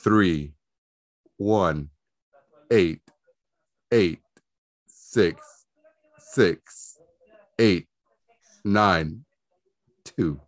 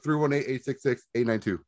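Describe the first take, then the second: First: The digits are read slowly. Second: The digits are read quickly.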